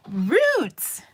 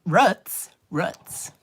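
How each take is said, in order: First: "Roots" high and loud with a long oo; mimicked correction. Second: "roots" with a short vowel, rhyming with "foots"; own regional pronunciation. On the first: Students correcting their teacher, exaggerated long-oo "Roots". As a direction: stretch "Roots" with the vowel of "boot", pitched way up. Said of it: "And they're like". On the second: Retold or imitated. Teacher giving her own word, short-vowel "roots". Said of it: "I call those".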